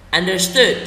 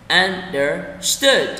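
First: Said in the usual way. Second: Understood broken into un, der, stood; slow syllable split. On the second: Shown as a demonstration. Teacher breaks the word down for learners, slowly split. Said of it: "đọc chậm từng từ một".

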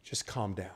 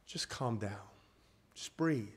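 First: Hushed and reassuring; soothing hush. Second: Softer, hushed calming words; gentle hush; soothing hush. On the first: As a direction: settle them down gently. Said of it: "calming the congregation". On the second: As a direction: ease the room down. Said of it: "repeats calming phrase". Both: Acted.

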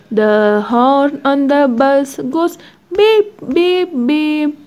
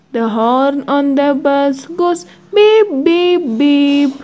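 The two takes are said the same way.

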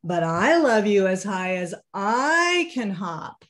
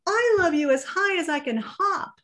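First: Said in the usual way. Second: High and bouncy, mild laugh in it; little hare hopping, high giggly voice. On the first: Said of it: "said Big Nut Brown Hare". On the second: Acted. Little hare bouncing for his father, high mild laughing voice. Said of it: "laughed Little Nut Brown Hare".

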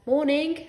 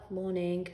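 First: Higher, louder "Morning" with a rising end; forced greeting. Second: Muted greeting. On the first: Father forced to chat. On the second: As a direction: answer "Morning" without any lift. Neighbour returns the greeting. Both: A narrator's reading.

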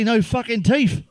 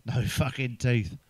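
First: High, slow punchline. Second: Low, slow deadpan repeat; dry punchline repeat. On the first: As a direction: land it slowly, pitched up. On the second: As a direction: say it again slowly and flat. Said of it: "explain me fucking jokes". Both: Shown as a demonstration.

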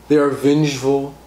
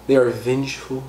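Both takes have the same delivery.

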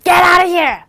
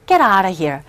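First: Much higher, louder yelled get out; shouted command to leave; angry shout. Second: Dismissive. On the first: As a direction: order him out at full voice. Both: Shown as a demonstration. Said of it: "억양만 구분하셔서".

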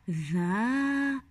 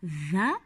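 First: ذا with the a held long; long, sustained ذا; long vowel. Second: ذا cut short, a brief a; short ذا, not held; short vowel. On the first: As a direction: stretch the vowel of ذا into a long madd. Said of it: "ما المد الطويل المناسب له". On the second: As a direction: say ذا with a quick fatha vowel. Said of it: "هنا على الذال فتحة". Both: Shown as a demonstration.

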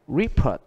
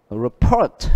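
First: REport, stressed on RE; first-syllable stress. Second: RePORT, second syllable stressed; verb stress on report. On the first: Teacher reading nouns, Report with first-syllable stress. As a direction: stress the RE in Report, then fall. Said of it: "đều nhấn âm đầu". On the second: Teacher reading it as a verb, report with second-syllable stress. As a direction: punch the PORT in report. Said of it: "Nếu như A và B là". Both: Shown as a demonstration.

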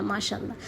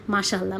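First: মাশাআল্লাহ repeated much softer, fading out. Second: Said in the usual way. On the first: Real, not acted. Mother blessing her daughter again, much softer. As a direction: let the second মাশাআল্লাহ drop away softly.

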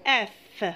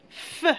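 First: Said in the usual way. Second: "F" as its bare soft sound, fff, not the letter name. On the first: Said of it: "c'est la lettre". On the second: Shown as a demonstration. Teacher showing what remains of Fa, "F" as a soft fff sound. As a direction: hiss a quiet fff for "F". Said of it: "Il reste".

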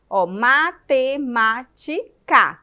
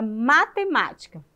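First: "matemática" slow and loud, ma-te-má-ti-ca; syllable by syllable. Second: Said in the usual way. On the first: Shown as a demonstration. Teacher counting mouth openings for children, loud separated syllables. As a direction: punch each syllable of "matemática" separately, full final ca. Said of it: "Quantas vezes você abre a boca". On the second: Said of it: "falar a palavra matemática".

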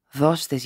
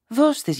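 First: Said in the usual way. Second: Compassionate plea. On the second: A narrator's reading. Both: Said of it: "σπλαχνιστικά".

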